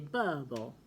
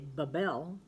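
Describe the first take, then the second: First: The stress is on the first syllable. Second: The stress is on the second syllable. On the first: The speaker calls it right. "but you say bubble" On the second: The speaker calls it wrong. "You don't say bubble"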